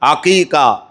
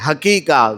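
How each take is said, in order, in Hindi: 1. यह शब्द गले की ऐन ध्वनि से शुरू होता है। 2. यह शब्द ह ध्वनि से शुरू होता है। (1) "अकीका आइन से है" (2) "बहुत सारे लोग हकीका बोलते हैं, हकीका गलत है"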